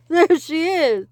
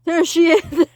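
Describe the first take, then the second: First: High loud slower shout; excited shout. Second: Loud high shout; child shouting on seeing the witch; alarmed shout. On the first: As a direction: call it out urgently. Repeat of the cry. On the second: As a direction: shout the warning. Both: Acted.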